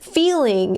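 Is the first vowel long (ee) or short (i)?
long. The first vowel is a long ee sound.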